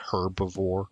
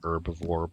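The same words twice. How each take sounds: First: The opening h sound is pronounced. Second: The opening h sound is silent. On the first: This is the British way. "the Brits say herbivore" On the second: This is the American way. "we pronounce that word with a silent H"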